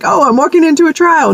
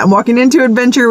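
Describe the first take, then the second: First: Higher, dragging mock gloom; mock dread. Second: Fast, bright-spirited rebuttal; cheerful fast reply to her own gloom; upbeat correction. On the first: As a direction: sigh it out like a doomed pilgrim. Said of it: "be like". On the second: Pretend. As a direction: snap back into optimism, quickly. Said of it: "No, I'm not".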